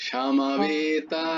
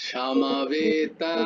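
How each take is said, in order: The two takes are said the same way.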